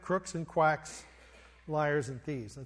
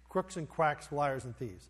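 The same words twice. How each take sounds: First: The phrase is said at a normal pace. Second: The phrase is said very quickly.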